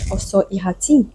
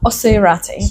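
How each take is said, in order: First: The name is said with French-style pronunciation. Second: The name is said with English-style pronunciation.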